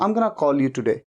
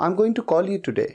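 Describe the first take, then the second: First: Going to is reduced to gonna. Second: Going to is said in full. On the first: "गोइंग टू की जगह पे गोना कहना conversation में बड़ा common है" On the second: "गोइंग टू"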